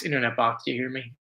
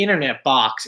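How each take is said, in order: First: Much lower and softer; low hushed call to the box; low quiet call. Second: Said in the usual way. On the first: Pretend.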